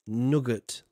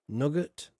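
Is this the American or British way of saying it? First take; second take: American; American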